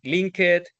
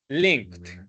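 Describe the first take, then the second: First: The ending is pronounced the Spanish way. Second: The ending is pronounced the English way. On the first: The speaker calls it wrong. "reading them like it was it was Spanish" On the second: The speaker calls it right. "It should have been"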